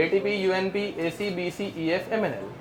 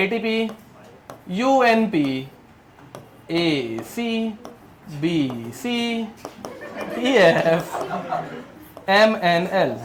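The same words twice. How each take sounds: First: Softer, run together without gaps; flowing recitation. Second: Slow dictation. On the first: Teacher showing students the mnemonic's flow, softly run together. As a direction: let the letters flow quietly as one chain. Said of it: "ऐसे एकदम flow है इसमें". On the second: Teacher giving students a mnemonic to memorise, slow and spaced out. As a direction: piece by piece with long pauses. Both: Shown as a demonstration.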